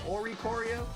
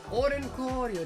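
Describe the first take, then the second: First: It is said without an n sound inside. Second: It is said with an n sound inside. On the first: "So you're saying I should say like Oricorio?" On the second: "I say Orincorio. ... Just sounds so much nicer though"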